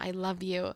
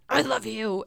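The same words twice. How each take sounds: First: It is said awkwardly and uncomfortably. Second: It is said in an angry, mean way.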